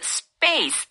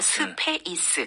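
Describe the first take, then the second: First: It is said with English-style sounds, strongly. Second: It is said with Korean-style syllables and vowels. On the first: The speaker calls it right. "실제 발음할 땐 스파 해서 space 해서" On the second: The speaker calls it wrong. "스페이스라고 우리 한글로는 그렇게 쓰잖아요"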